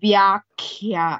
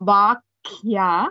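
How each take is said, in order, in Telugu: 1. ఇది vya తో మొదలవుతుంది, మహాప్రాణ kha తో. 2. ఇది సాదా va తో మొదలవుతుంది, అల్పప్రాణ ka తో. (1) "it is a vyakhya" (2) "It is not a vakya"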